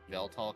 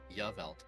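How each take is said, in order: First: The name begins with an 'ee' vowel sound. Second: The name begins with a 'yeh' sound. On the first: "Y sounds a lot like an E" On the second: "the Y as in like yes"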